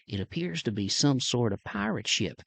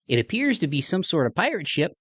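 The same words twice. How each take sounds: First: It is spoken in a Southern American accent. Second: It is spoken in a Midwestern American accent. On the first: The speaker calls it right. "that Southern accent" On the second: The speaker calls it wrong. "a guy like me on there with a Midwest accent"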